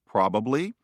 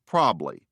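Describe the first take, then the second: First: The word is said in its full form. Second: The word is said in a reduced form.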